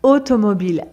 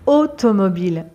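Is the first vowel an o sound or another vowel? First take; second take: o sound; o sound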